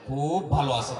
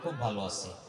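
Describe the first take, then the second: First: The words are stretched out, sounds drawn apart. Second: The words are said at normal length.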